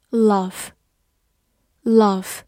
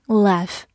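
First: "Laugh" with a long open "ah", as in father; "Laugh" with a broad British A; non-American pronunciation. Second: "laugh" with the short A of "cat"; American "laugh" with a front A vowel; American pronunciation. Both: Shown as a demonstration. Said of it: "美式发音".

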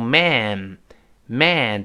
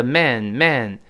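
First: "man" with a long, wide-open a as in cat; singular open vowel. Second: "man" said as "men", with the e of bed; plural closer vowel. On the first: Teacher shows the singular for students, open vowel. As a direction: drop the jaw on "man", slow open vowel. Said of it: "如果是单数，M A N读成man". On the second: Teacher shows the plural for students, closer vowel. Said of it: "再加N叫man，man". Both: Shown as a demonstration.

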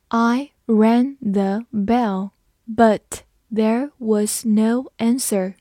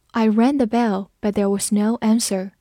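First: Word by word, very slow, with clear gaps; slow read-along. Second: Said in the usual way. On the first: Shown as a demonstration. Teacher leading learners through the doorbell sentence, slowly. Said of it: "跟着我慢慢来读".

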